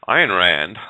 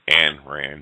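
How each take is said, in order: First: The first name is not said like Anne. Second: The first name is said like Anne. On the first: This is the name's proper pronunciation. The speaker calls it right. "Ayn is the proper pronunciation" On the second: This is how people say it in the States. The speaker calls it wrong. "also known as Anne Rand here in the States"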